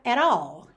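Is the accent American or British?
American. It is said with an American accent. "numa pronúncia americana, ficaria at all"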